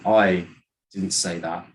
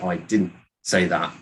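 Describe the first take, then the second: First: The word I carries the main stress. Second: The word didn't carries the main stress. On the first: Someone else said it. "then you're saying that someone else did" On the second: It simply was not said. "you're just saying that I didn't say it"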